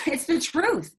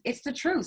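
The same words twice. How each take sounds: First: It's the truth, said slower and higher with weight on "truth"; emphatic. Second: Said in the usual way. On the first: Real, not acted. Host insists to the guests, slow emphatic "it's the truth". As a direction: lean into "it's the truth" slowly, the pitch up.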